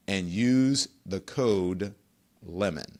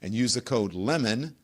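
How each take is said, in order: First: Lemon said very slowly, trailing off softer; slow repeated promo code. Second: Said in the usual way. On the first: Shown as a demonstration. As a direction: drag out and use the code lemon so it sticks.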